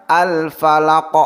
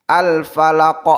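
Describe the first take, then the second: The two takes are said the same way.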